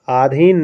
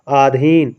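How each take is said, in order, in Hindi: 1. पहला स्वर दीर्घ है। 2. पहला स्वर दीर्घ है।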